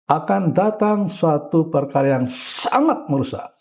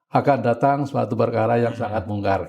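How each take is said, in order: First: It is said with strong, dramatic emphasis. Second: It is said flatly, without emphasis.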